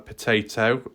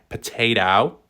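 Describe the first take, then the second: First: It is said in the speaker's non-American accent. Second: It is said in an American accent.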